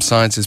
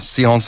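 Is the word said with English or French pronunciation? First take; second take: English; French. First: The word is said with English pronunciation. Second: The word is said with French pronunciation.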